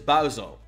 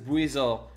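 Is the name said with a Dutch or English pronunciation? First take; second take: Dutch; English. First: The name is pronounced the Dutch way. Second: The name is pronounced the English way. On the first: "What we would say in Dutch is" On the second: "I think it's"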